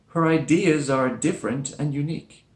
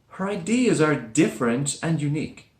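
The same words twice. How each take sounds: Both takes have the same delivery.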